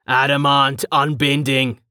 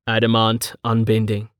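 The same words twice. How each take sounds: First: A ringing formal oath; formal salute cry. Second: Somber. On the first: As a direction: declare it like a soldier's salute. Dominus salutes, fist to chest. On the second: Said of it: "He spoke in a somber voice". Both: Acted.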